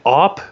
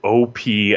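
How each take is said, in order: First: It is said as one short syllable. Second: It is said as two separate letters. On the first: It is short for operation. "op as in like operation" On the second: It stands for overpowered. "O P as in overpowered"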